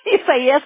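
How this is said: The name is pronounced the Spanish way.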